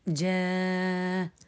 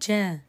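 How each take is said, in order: First: The long vowel is held for six counts. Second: The long vowel is held for two counts. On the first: "الإشباع" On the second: "القصر"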